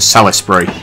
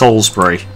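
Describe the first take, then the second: First: The name is said a non-English way. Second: The name is said the English way. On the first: "as opposed to Salisbury" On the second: "I'm basing it off the English town, which is Salisbury"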